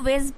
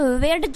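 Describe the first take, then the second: First: No separate d sound precedes the final sound. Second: A separate d sound precedes the final sound. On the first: The speaker calls it right. "वेज पढ़ना है" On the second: The speaker calls it wrong. "वेड्ज नहीं पढ़ना है आपको"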